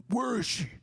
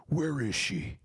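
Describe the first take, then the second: First: Much higher squeaky demanding voice; mock angry friend. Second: A hint of a pushy high voice, asking where she is; lightly voiced intruder at the door; mock demanding friend. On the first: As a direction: burst in shrieking the question. Yoshi busting in. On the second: Yoshi at the door.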